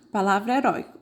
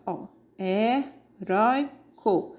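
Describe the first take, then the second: First: Said in the usual way. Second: Heróico drawn out slowly, syllable by syllable, with the diphthong oi clear; slow syllable demo. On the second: Shown as a demonstration. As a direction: stretch out he-rói-co so the class hears the oi. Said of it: "Ela é uma paroxítona". (heróico pronunciado devagar, sílaba por sílaba)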